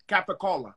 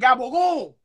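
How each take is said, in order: First: It is said with full standard English vowels. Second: It is said clipped, with voiced consonants. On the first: The speaker is not Italian. The speaker calls it wrong. "a person who's not Italian like me and Al over here, you would call it capicola ham" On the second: The speaker is Italian-American. The speaker calls it right. "in an Italian deli, they're going to go, you mean gabagool?"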